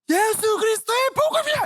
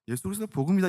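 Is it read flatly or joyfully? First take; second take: joyfully; flatly. First: It is read with lively, joyful excitement. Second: It is read in a dry, flat way.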